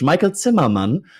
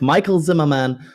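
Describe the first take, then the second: First: The name is said with non-English pronunciation. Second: The name is said with English pronunciation.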